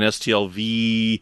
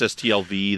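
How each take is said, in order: First: The final V is drawn out longer still. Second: The final V is drawn out a little. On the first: It stands for the third year. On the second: It stands for the first year.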